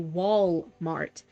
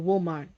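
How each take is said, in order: First: The first syllable sounds like wall. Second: The first syllable sounds like wool. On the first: "I would not say Walmart" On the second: "I'd say Walmart"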